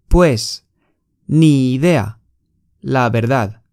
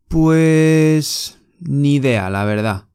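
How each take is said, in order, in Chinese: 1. 每个单词都分开读，没有连读。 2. 这些单词连成一个流畅的旋律。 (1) "大部分的你们可能是这样发音。这个发音不是很好" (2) "我们西班牙人会怎么发音呢？我给你们读一遍。"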